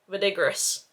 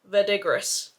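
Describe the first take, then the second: First: The word is pronounced the English way. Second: The word is pronounced the English way.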